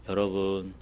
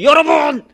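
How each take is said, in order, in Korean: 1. 조용한 목소리로 말합니다. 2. 크고 높은 목소리로 말합니다. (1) "목소리도 조용히" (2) "목소리를 높이면서 이렇게 연설하면서"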